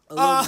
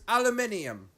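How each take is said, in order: First: It is said the American way, four syllables. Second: It is said the British way, five syllables.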